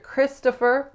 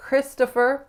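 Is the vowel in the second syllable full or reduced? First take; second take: reduced; reduced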